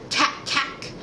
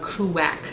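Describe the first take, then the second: First: The word starts with a plain k sound. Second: The word starts with a separate koo syllable. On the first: A small child has not yet learned the sound. "she would go" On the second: The child tries too hard to fix the sound. "she overcorrected"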